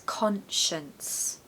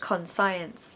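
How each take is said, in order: First: Stressed first syllable, second part has a schwa. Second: The second part sounds like the word science. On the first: The speaker calls it right. "it's conscience. We really need a strong con in the first syllable" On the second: The speaker calls it wrong. "But it's not pronounced conscience"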